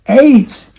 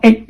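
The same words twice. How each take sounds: First: The vowel glides as a diphthong 'ay'. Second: The vowel is short, like in 'egg'. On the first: The speaker calls it right. "This diphthong, okay, is pronounced as what? A" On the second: The speaker calls it wrong. "not eight. You're not talking about buying eggs"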